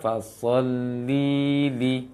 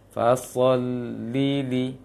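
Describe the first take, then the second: First: The first li syllable is drawn out long. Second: The two li syllables follow with no gap. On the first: The speaker calls it wrong. "Li yang pertama terpanjangkan" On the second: The speaker calls it right. "maka li ke li seperti itu juga"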